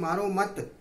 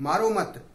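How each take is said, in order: No difference in how they are said.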